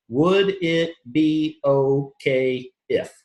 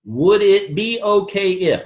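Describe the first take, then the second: First: Would it be okay if stretched very slowly, rising on if; slow, drawn out. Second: Would it be okay if slow, each word weighed; key phrase. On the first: Coach drilling the exact phrase to the audience, very slow. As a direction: spell out Would it be okay if word by word. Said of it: "I make sure it's those words". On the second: Coach giving trainee the exact phrase, slow and weighted. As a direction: lay out Would it be okay if deliberately. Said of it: "That's the only thing that I prescribe". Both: Shown as a demonstration.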